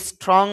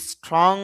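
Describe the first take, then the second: No difference in how they are said.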